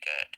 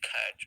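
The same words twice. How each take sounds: First: The final t is unaspirated and plain. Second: The final t is released with a puff. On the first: The speaker calls it right. "we say simply cat" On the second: The speaker calls it wrong. "We don't say cat"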